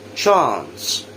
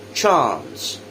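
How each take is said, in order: First: British accent, with an open 'ah' vowel. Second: The same.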